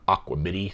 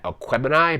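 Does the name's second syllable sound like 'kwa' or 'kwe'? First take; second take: kwa; kwe. First: The second syllable sounds like 'kwa'. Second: The second syllable sounds like 'kwe'. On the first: "if you're Siri or Alexa, you are pronouncing it um, Aquamini" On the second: "I think I'm pronouncing that correctly"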